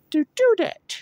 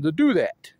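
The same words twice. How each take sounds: First: Very high playful echo; high-pitched repeat. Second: Said in the usual way. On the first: Pretend. Repeating own wish to do that, very high voice.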